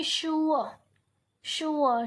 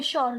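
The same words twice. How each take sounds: First: श्योर said as "shoo-uh" with no r; श्योर with a non-rhotic ending; silent r in sure. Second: Said in the usual way. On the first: Shown as a demonstration. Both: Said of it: "लेकिन हम इसको क्या बोलेंगे".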